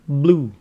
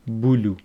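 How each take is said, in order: First: The b and l are said together. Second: An extra vowel separates the b and l. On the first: The speaker calls it right. "It is blue" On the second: The speaker calls it wrong. "some students go bulu"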